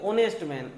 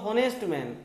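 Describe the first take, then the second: First: The first word begins with a vowel, no h. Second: The first word begins with an audible h sound. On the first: "কিন্তু উচ্চারণ হয় অনেস্ট man" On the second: "actual উচ্চারণ হওয়ার কথা ছিল হনেস্ট man"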